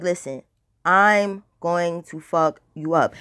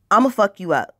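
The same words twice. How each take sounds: First: Slow, deliberate threat. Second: Said in the usual way. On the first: Retold or imitated. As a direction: spell it out slowly, menacing. Repeats threat slowly to rival.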